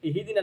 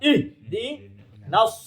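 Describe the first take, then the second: First: The word ends on a vowel without s. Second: The word ends with an s sound. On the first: The speaker calls it wrong. "ইহদিনা না" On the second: The speaker calls it right. "ইহদিনাস কইয়া"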